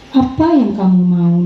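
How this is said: It is said in a guilt-inducing tone. The adult makes the child feel guilty. "Bisa tuh menjadi membuat merasa bersalah"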